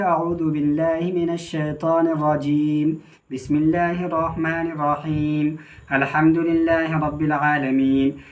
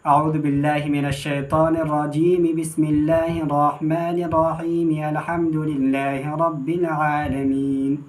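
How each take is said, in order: First: Each phrase is separated by a pause. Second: The phrases run together without pauses.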